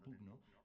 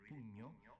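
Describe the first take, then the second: First: The gn is said as separate g and n. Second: The gn is said as one ñ sound. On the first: "rather than pugno" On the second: "it becomes a ñ sound, so an Italian would read it pugno"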